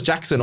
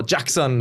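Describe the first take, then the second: First: Said in the usual way. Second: JACKSON said the way the player himself says it; player's own pronunciation. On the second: Shown as a demonstration. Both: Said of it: "as he says on his, uh, yeah, name".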